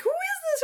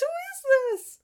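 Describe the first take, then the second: First: "is" pushed high and hard, falling away; much higher voice, leaning on "is"; hint of a crowd demanding; stress on is. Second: "Who" punched high, falling after; much higher put-on voice, hitting "Who"; stress on who. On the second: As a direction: crowd voice leaning on who. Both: Villagers crowding around the boy.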